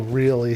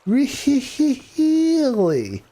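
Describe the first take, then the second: First: Said in the usual way. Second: "Really?" pitched high and stretched long; Jim Carrey. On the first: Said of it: "how he does the whole". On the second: Retold or imitated. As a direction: overplay the disbelief like the comic. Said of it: "I can't do it".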